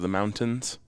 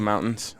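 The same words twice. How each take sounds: First: The T in mountains is clearly pronounced. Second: The T in mountains is dropped. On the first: This is how people elsewhere say it. "instead of" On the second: This is the local Colorado way of saying it. "we don't pronounce a lot of T's, like mountains. Like we say"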